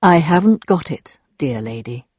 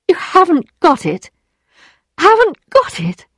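First: Very calm. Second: High, stunned echo; disbelieving. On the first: Rodolphe refuses Emma's plea, very calm. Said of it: "replied very calmly". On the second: Emma repeats Rodolphe's refusal, disbelieving. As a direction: throw it back at him, pitch climbing. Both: A narrator's reading.

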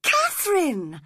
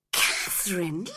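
First: Catherine! called out louder and higher, falling; shocked cry. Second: Shocked. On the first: Edgar crying out at Catherine, loud and high. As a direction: cry her name out in alarm. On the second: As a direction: breathe her name in disbelief. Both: A narrator's reading. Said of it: "cried Edgar, shocked".

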